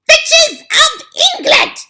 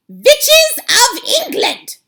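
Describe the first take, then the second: First: Even higher, louder, slow screech; shrieking hag summons her coven; witch's yell. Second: Very high, loud, slow witch's screech; commanding witch cry, drawn out; Grand High Witch shout. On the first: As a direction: scream it over the crowd. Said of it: "she yelled". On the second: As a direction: screech it out like a furious witch queen. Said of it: "shouted the Grand High Witch". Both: Acted.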